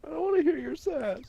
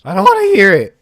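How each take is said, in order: First: High squeaky mocking voice. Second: Loud annoyed protest. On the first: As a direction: mimic him in a squeaky high voice. Mocking his brother's protest. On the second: Real, not acted. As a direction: push back loud and annoyed. Original protest.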